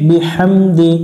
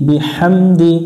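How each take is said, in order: The two takes are said the same way.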